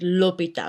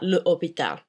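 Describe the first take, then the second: First: The article joins smoothly onto the noun. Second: A glottal stop separates the article and noun. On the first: The speaker calls it right. "So it's l'hôpital" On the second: The speaker calls it wrong. "not le hôpital ... you get that glottal stop"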